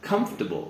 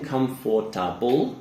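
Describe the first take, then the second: First: The word is said with three syllables only. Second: The word is said with four full syllables. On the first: The speaker calls it right. "we say comfortable. So we actually don't say the or" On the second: The speaker calls it wrong. "instead of saying comfortable"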